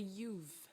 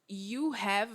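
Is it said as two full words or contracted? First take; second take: contracted; two words. First: The words are contracted into one syllable. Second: Both words are said fully and separately.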